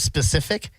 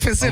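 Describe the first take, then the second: First: The word begins with an 's' sound. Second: The word begins with a 'p' sound. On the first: The speaker calls it right. "one of the words I was pronouncing wrong" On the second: The speaker calls it wrong. "I said Pacific"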